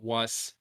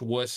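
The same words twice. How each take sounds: First: The vowel differs from the one in 'wussy'. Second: The vowel matches the one in 'wussy'. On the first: The speaker calls it wrong. "not wuss" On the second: The speaker calls it right. "it's pronounced wuss"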